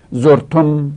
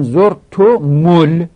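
First: زرتم closed on a held "m", "zortom"; silent-vowel mim. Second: زرتم ال slowly linked as "zortomul"; damma on mim. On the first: Teacher showing the sukun, زرتم as "zortom". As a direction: end زرتم on m with no vowel after it. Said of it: "میم ساکنه". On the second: Teacher quoting how reciters say it, زرتم ال as "zortu-mul". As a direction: give the m of زرتم a "u" running into ال. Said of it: "میم را هم ضمه دادن". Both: Shown as a demonstration.

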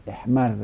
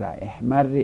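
First: احمر as "ehmarra"; fatha ending. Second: احمر as "ehmarri"; kasra ending. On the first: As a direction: say احمر with a doubled r and final short "a". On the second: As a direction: say احمر with a doubled r and final short "i". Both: Shown as a demonstration.

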